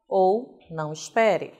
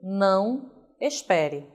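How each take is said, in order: First: Não espere run together; one smooth phrase with no break after não; no pause. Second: Não, then a clear break before espere; slow read with a stop after Não; pause after não. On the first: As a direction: read straight through, no comma. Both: Shown as a demonstration. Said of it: "Vírgula pode ser uma pausa ou não".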